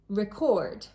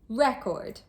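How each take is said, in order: First: The stress is on the second syllable. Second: The stress is on the first syllable. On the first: It is a verb meaning to make a copy of sounds. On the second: It is a noun meaning a written account.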